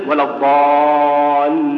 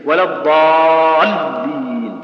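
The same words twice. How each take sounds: First: "ولا الضالين" chanted slowly with the ل drawn out long; lam stretched. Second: "ولا الضالين" chanted slowly with the ل stopped hard; lam held tight. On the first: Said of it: "بتجري الصوت وتخليه يتمدد". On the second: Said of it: "بتخليها شديدة". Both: Shown as a demonstration.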